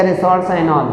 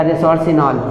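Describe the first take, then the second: First: "resorcinol" said re-sor-SIGH-nol; long-i pronunciation. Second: "resorcinol" said re-sor-see-nol; alternative pronunciation. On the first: Teacher naming the third-position compound, "resorcinol" as re-sor-sigh-nol. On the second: Teacher offering the other variant, "resorcinol" as re-sor-see-nol. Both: Shown as a demonstration. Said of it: "कुछ लोग रेसोरसिनॉल कहेंगे".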